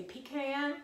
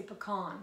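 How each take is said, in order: First: "pecan" said PEE-can, first syllable like "pea". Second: "pecan" said puh-KAHN, stress on the end. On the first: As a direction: say "pecan" with a long ee and "can" as in tin can. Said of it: "How do you all say it?". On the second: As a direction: say "pecan" with a short first syllable and a broad ah. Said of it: "or do you say". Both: Shown as a demonstration.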